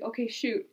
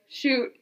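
First: Said in the usual way. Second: Retold command, a bit more forceful; insistent prompt. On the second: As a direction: push the word out to get her to act. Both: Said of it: "like, doesn't shoot".

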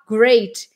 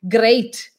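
First: Curled, untapped R in GREAT; rounded English R. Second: GREAT with a strong tapped R; harder Eastern European R. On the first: Shown as a demonstration. Teacher gives the form they can't say, rounded R. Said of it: "aquela arredondada do great". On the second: Retold or imitated. Teacher imitates Russians and Germans, stronger R. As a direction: hit the R in GREAT hard, unrounded. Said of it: "Uma coisa mais forte".

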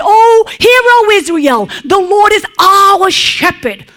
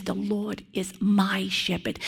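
First: High, loud public proclamation; proclaiming loudly. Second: Much softer, personal confession; intimate, with feeling. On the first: David as he might have proclaimed it to Israel, loud and high. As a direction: call it out to a whole nation. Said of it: "Now, he could have said". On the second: David speaking of his own shepherd, soft and heartfelt. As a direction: say it close, as a private truth. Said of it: "he says it, okay, with such, uh, feeling". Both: Pretend.

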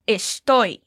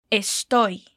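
First: Estoy said clearly as a Spanish model word. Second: Estoy said again for the learner to copy; repeat model word. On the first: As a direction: say Estoy for the learner. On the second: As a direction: say Estoy once more. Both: Shown as a demonstration. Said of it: "Como falamos estou?".

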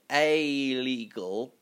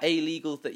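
First: Very slow "a legal", with "a" held apart; slow careful "a legal". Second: Said in the usual way. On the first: Shown as a demonstration. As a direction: drag out "a" before "legal". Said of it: "You've got to be very cl". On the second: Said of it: "it sounds like you're saying illegal".

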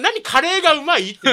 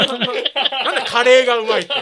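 First: Reads the question out loud, puzzled; disbelieving, louder read-out; baffled reading. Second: Repeats it while laughing. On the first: (呆れたように読み上げる) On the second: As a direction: laugh through the question. (笑いながら繰り返す) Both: Shown as a demonstration. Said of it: "何の質問なんですか".

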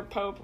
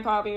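First: "Pope" said as one syllable with a long o. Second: "Poppe" said like "poppy"; two-syllable Poppe. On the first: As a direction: say "Pope" like the head of the church. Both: Shown as a demonstration. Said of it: "Poppe or Pope".

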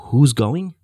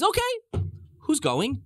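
First: Loud, challenging repeat of a question; incredulous echo. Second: High-pitched, agreeable question; negotiating Pharaoh. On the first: God's side answering Pharaoh's haggling, incredulous. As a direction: throw the question back loudly. Question thrown back in disbelief. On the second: Pharaoh ready to negotiate with God, agreeable. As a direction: ask high, open to haggling. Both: Retold or imitated.

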